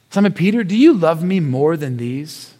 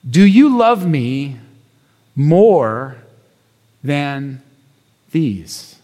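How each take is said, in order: First: Said in the usual way. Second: Slow, with long pauses before than and these; gentle, searching delivery; slow solemn question. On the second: Acted. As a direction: let the question hang, falling low on these. Slow solemn quote of Jesus.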